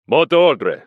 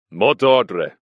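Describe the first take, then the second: First: Higher, louder insistent demand; guard insisting on the password; louder repeated demand. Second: Sharp, loud challenge; suspicious guard demanding password. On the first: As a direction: repeat it harder. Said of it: "repeated the Russian". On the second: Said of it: "he said sharply". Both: A narrator's reading.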